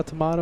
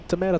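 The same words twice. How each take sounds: First: "tomato" with "mah" in the middle; broad "ah" in "tomato"; British-style tomato. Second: "tomato" with "may" in the middle; long A in "tomato"; American tomato. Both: Shown as a demonstration. Contrasts two ways of saying tomato.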